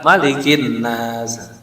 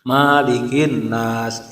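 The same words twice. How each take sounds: First: The first vowel of malikin is kept short. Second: The first vowel of malikin is drawn out long. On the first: The speaker calls it right. "memang malikinya pendek" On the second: The speaker calls it wrong. "banyak yang baca panjang. Salah"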